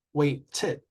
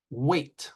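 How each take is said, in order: First: "waited" split, wait-ted; two-syllable demo. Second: Said in the usual way. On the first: Shown as a demonstration. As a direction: sound out the extra syllable ending "waited". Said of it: "two syllables". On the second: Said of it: "one syllable".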